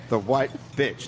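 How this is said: The stress falls on the word bitch. The speaker calls it right. "bitch is more prominent"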